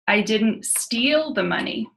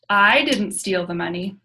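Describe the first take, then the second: First: The stress is on the word steal. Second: The stress is on the word I.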